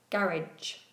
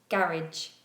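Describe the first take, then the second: First: It is said with a British pronunciation. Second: It is said with a British pronunciation.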